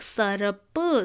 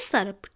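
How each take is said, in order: First: The word is said slowly, sound by sound. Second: The word is said quickly as one unit.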